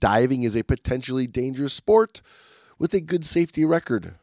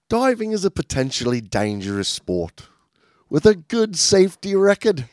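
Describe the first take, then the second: First: It is read in the speaker's normal accent. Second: It is read in a put-on British accent. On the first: The speaker calls it wrong. "you're supposed to do that in the British voice" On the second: The speaker calls it right. "Let me try"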